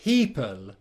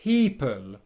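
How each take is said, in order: Both takes have the same delivery.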